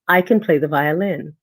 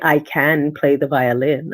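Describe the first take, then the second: First: The word can is unstressed and reduced. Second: The word can has a full, clear vowel. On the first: The speaker calls it right. "I say ... it is not stressed in the sentence" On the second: The speaker calls it wrong. "I don't say"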